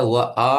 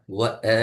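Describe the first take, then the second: First: வ running into a long ஆ; wrong long AA. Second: வ then a short, separate அ; correct short A. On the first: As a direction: stretch the vowel after வ into an open ஆ. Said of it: "என்று போகாது". (வ, ஆ என்று நீட்டி) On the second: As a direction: keep அ brief and distinct after வ. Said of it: "என்று தான் வரும்". (வ, அ என்று குறுக்கி) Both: Shown as a demonstration.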